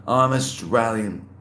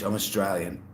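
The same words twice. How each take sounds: First: "Australian" drawn out slowly; slow, deliberate repeat. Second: Said in the usual way. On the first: Real, not acted. Repeats answer slowly, emphatically.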